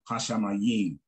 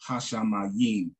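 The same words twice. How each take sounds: No difference in how they are said.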